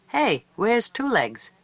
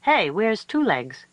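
First: High, slow calling out; coyote pups calling. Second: Coyote pups calling. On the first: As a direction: call out for the missing child. Pups ask again. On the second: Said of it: "Her pups said". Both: A narrator's reading.

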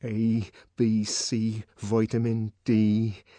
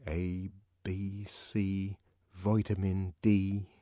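First: Slow, louder chant; chanted, force out the spell. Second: Soft, slow chant; chanted, murmur it like a spell. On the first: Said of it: "he repeated to himself". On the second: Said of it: "he repeated to himself, as though the words were a spell". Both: Acted.

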